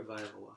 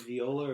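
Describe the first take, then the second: First: "Viola" said vy-OH-la; "Viola" opening like the word "vie"; second pronunciation of Viola. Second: "Viola" said vee-OH-la; "Viola" opening with an ee sound; first pronunciation of Viola. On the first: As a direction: say "Viola" with a vy at the start. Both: Shown as a demonstration. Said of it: "is it Viola or Viola".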